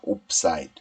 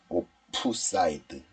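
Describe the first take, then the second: First: The first part is one closed syllable, 'op'. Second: The first part has two syllables, 'o-peu'. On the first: The speaker calls it right. "옵이라고 발음하는 게 낫습니다" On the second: The speaker calls it wrong. "이러면 좀 어색하니까"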